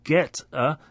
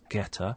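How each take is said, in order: First: The two words are said separately. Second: The t links into the vowel, like getter.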